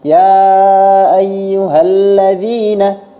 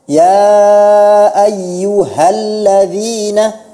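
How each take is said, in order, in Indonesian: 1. Konsonannya melunak dan sedikit meluncur. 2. Konsonannya diucapkan dengan jelas dan tegas. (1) "Hanya dibaca seperti tashil" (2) "Jelaskan huruf hanya itu dijelaskan"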